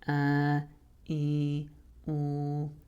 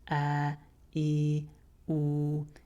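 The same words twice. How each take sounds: First: The vowels have a strong nasal sound. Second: The vowels are clear with no nasal sound. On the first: The speaker calls it wrong. "You can hear how that sounds a lot more nasal" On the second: The speaker calls it right. "the long vowels themselves should be clear without nasality"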